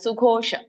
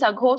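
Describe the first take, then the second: First: The first syllable has a u vowel. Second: The first syllable has an a vowel. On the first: The speaker calls it right. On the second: The speaker calls it wrong.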